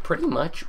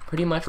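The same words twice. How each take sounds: First: Voice crack. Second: Said in the usual way. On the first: Real, not acted. Gamer explaining his basement plan, voice cracking. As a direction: voice cracks upward mid-phrase. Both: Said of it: "oh my god, the voice crack".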